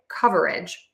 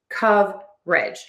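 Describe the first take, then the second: First: The word is said with three syllables. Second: The word is said with two syllables. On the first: "when I am saying this word slowly, I will say coverage with three syllables" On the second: "totally drop that schwa syllable and really reduce that word to just"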